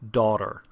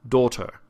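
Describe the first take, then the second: First: It has an open, standard American vowel. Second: It has a closed, standard British vowel.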